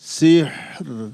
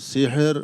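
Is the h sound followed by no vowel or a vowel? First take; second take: no vowel; a vowel. First: The h is sounded with no vowel after it. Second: A vowel is sounded after the h. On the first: The speaker calls it right. "হা সাকিন" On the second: The speaker calls it wrong. "হায়ের মধ্যে হরকত পড়ে গেছে"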